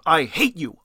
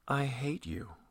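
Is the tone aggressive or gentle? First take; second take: aggressive; gentle. First: It is said aggressively, like punching. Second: It is said gently and soothingly.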